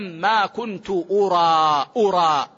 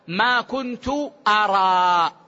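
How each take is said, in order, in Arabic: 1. الحركة الأولى في الفعل هي u. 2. الحركة الأولى في الفعل هي a. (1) "بضم الهمز، أي أظن أو أعلم" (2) "من الرؤية، أي ما كنت أشاهد"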